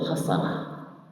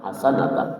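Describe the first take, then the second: First: The word ends with a short -ah ending. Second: The word ends with the full -atan ending. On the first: This is the simple everyday way of saying it. "Kalau kita nyebutnya simple" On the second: This is the fully vowelled reading. "Kalau secara harokatnya itu"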